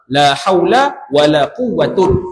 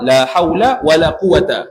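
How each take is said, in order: First: The last word ends in 'un'. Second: The last word ends in a short 'a'. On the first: "War raf'u ataupun rafa'" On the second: "Pertama, al-fathu. Mana mabni al-fathi"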